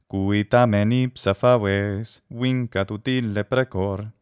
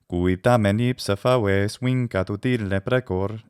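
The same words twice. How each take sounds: First: There is a pause after "faves". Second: There is no pause after "faves". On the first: "maybe I shouldn't stop at that caesura there" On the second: "It feels so awkward not to stop there"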